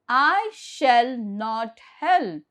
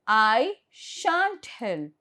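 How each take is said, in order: First: Shall not is said as two full words. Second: Shall not is contracted into one syllable. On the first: "instead of saying shall not" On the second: "you contract and say I shan't help"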